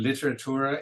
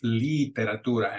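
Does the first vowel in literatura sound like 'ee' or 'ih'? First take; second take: ih; ee. First: The first vowel is a short, lax 'ih' sound. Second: The first vowel is a long, tense 'ee' sound. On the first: The speaker calls it wrong. "we'll hear people say" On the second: The speaker calls it right. "elongate it out a little bit because you got to get that E sound"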